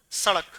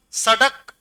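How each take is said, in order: First: सड़क with a quick retroflex flap ṛ; सड़क with ड़ flapped, never a hard ḍ. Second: सड़क with a hard retroflex ḍ stop; no flap in सड़क, a plain ḍ. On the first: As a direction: flick the tongue out in सड़क, "sa-ṛak". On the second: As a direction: say सड़क as "sa-ḍak", tongue stopping firmly. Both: Shown as a demonstration. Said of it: "उच्चारण में फर्क आया".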